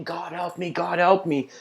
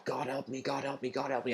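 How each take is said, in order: First: High-pitched, mildly acted cry for help; shouted plea. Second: Soft, repeated plea under the breath; pleading prayer. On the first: Slave tied to the horse calls on God, mock shouting. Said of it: "the slave is shouting". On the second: Acted. Hunted slave praying to God in a cave, hushed pleading. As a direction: pray urgently but keep it hushed. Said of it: "the slave is just praying to God".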